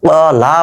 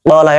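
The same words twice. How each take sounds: First: The final vowel is long, drawn out. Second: The final vowel is short, not drawn out. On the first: Two people said. "দুইজন বলল" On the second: One person said. "একজন বলল"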